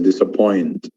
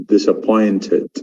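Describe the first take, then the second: First: It is said with an American accent. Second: It is said with a British accent. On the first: "In America" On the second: "but in England"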